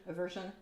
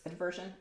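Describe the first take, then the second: First: "Aversion" said without a d, "uh-VER-zhun"; questioned pronunciation. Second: "Aversion" said with an added d, "ad-VER-zhun"; questioned pronunciation. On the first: Streamer unsure of the word, testing "Aversion" as "uh-VER-zhun". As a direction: try "Aversion" as "uh-VER-zhun", low and softly. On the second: Streamer unsure of the word, testing "Aversion" as "ad-VER-zhun". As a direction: try "Aversion" as "ad-VER-zhun", low and softly. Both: Shown as a demonstration. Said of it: "I don't remember which one it is".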